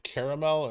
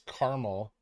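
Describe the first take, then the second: First: The word is said with three syllables. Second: The word is said with two syllables.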